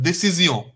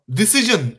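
First: Décision said the French way, day-see-ZYON, nasal ending; French sounds for Décision; French pronunciation. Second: Decision said the English way, di-SI-zhun; English sounds for Decision; English pronunciation. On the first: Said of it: "Just slight accent". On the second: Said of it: "Decision in English". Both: Shown as a demonstration.

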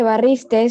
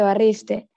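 First: "barriste" with an extra final S; barriste with added S. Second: Said in the usual way. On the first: Shown as a demonstration. Student showing the class the error, "barriste" with final S added. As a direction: end "barriste" on a hiss, as barristes. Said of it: "No se dice". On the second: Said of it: "se dice".

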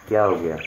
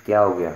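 No difference in how they are said.

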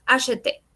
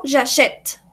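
First: "acheter" with a voiced é at the end; both Es sounded. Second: "j'achète" finishing on the t, no last vowel; silent final E. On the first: Teacher explains the infinitive, both Es pronounced. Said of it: "Las dos E suenan". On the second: Teacher explains the present tense, final E left silent. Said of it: "La última E no suena". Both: Shown as a demonstration.

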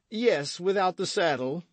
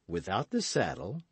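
First: High, blustering musketeer's reply; boisterous confirmation. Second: Restrained, sly question with a rise; quiet questioning. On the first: Porthos confirming the sale to Aramis, blustering. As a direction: confirm it in a raised, hearty voice. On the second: Aramis querying the sale price, restrained question. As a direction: ask it coolly in an even voice. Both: A narrator's reading.

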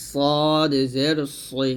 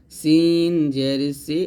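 First: সদ জের সই, very slow, heavy rounded s; thick sad. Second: সিন জের সি, drawn out with light s; thin sin. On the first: Teacher gives the heavy twin, thick সদ. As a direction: fill the mouth on a long সদ. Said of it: "সদ হবে মোটা করে". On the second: Teacher contrasts sin with sad, light সিন. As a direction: keep a long সিন thin. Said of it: "সিনটা মোটা পাতলা হবে". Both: Shown as a demonstration.

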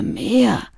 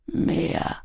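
First: Higher, drawn plaintive wail; whining. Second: Soft, indistinct murmur. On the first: Smoker begs the girl for more, whining. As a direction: whine for it, pitch lifted. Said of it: "jammerte er". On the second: Opium smoker asks the girl for more, murmuring. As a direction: murmur it weakly, barely voiced. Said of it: "murmelte er". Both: A narrator's reading.

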